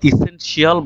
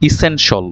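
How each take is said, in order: First: ইসেনশিয়াল split out as "i-sen-shi-AL"; mispronounced demo. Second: ইসেনশিয়াল said short as "i-SEN-shul"; standard pronunciation. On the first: Teacher shows learners what confuses an examiner, mispronounced. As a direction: end ইসেনশিয়াল in two syllables, "shi-al". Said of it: "আপনি যদি এটাকে ইসেনশিয়াল বলেন". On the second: Teacher models the word he just read, standard pronunciation. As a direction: end ইসেনশিয়াল in a quick "shul". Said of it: "আমি এখানে বললাম". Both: Shown as a demonstration.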